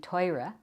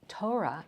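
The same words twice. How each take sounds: First: It is said with Ashkenazic Hebrew pronunciation. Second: It is said with Sephardic Hebrew pronunciation. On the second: "instead of"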